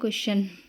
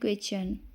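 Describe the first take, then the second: First: The middle sound is a plain 'sh'. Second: The middle sound is a 'ch'. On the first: The speaker calls it wrong. "हम लोग mostly generally क्या पढ़ देते हैं" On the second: The speaker calls it right. "तो हमें क्या पढ़ना है"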